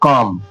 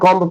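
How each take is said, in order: First: The word ends on m with no b. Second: The word ends with an audible b sound. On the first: The speaker calls it right. "नहीं कॉम, बी silent है यहाँ" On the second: The speaker calls it wrong. "अब कॉम्ब कॉम्ब पढ़ते थे ना"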